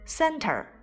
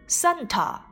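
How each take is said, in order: First: It is said with a curled r sound. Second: It is said with no r sound. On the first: "我都是使用的美式发音" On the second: "同样它们的英式发音"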